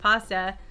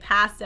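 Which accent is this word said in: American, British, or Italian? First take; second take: Italian; British. First: It is said the Italian way, with an open 'ah'. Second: It is said the way British speakers say it. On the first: The speaker calls it right. "So for Italians, it's pasta" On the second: The speaker calls it wrong. "whenever I hear a British say pasta, I'm like, oh"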